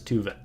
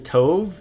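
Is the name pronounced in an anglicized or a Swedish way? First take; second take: Swedish; anglicized. First: The name is pronounced the native Swedish way. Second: The name is pronounced the anglicized English way. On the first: This is how it is natively said. The speaker calls it right. "it's tuve. Um, that's Swedish" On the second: This is how most people say it. The speaker calls it wrong. "people say tove"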